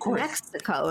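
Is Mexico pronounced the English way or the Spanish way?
English. The word is said with an English pronunciation. "I don't read Mexico in my head"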